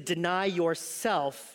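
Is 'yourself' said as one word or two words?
two words. Yourself is split into two separate words. The speaker calls it right. "what Jesus means is to deny yourself"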